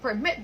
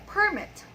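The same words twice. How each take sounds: First: Permit as a verb, per-MIT; stress on second syllable. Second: Permit as a noun, PER-mit; stress on first syllable. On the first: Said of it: "the first one is a verb". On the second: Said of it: "the second one is a noun". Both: Shown as a demonstration.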